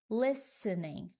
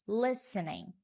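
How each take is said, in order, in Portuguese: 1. O T do meio é silencioso. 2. O T do meio é silencioso.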